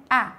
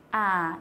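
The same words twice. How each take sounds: First: A said short and quick; a brief A sound. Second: A held long; a drawn-out A sound. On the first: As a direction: cut the vowel A short. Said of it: "Cái này là A ngắn". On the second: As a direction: stretch the vowel A out. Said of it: "đọc dài ra". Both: Shown as a demonstration.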